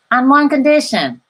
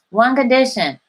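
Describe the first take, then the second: First: "one condition" louder, pressing "one"; stress on one condition. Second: "one condition" repeated lighter, falling on "condition"; softer repeat. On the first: Telling viewers her terms, "one condition" louder and emphatic. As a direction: lean hard on "one condition". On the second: Repeating her terms to viewers, "one condition" softer. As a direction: echo it more quietly. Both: Real, not acted. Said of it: "that you share it with others".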